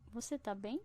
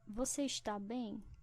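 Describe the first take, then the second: First: The verb is shortened to one syllable. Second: The verb is said in full, two syllables. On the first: "Na forma curta" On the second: "Isso aqui é uma forma longa"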